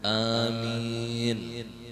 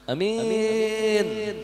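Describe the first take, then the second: First: The vowels are drawn out long. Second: The vowels are said short and clipped. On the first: The speaker calls it right. "Panjangkan alifnya, panjangkan mimnya" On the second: The speaker calls it wrong. "itu kekanakan"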